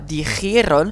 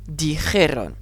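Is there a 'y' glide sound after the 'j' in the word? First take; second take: yes; no. First: An extra 'y' glide follows the 'j'. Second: No 'y' glide follows the 'j'. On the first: The speaker calls it wrong. "On ne dit pas" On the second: The speaker calls it right. "on n'a pas le i qu'on aurait pu avoir d'habitude"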